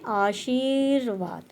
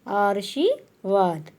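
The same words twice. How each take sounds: First: The r sound comes after the 'shi' syllable. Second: The r sound comes before the 'shi' syllable. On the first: The speaker calls it right. "हम क्या बोल रहे हैं" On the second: The speaker calls it wrong. "जबकि ये गलत है"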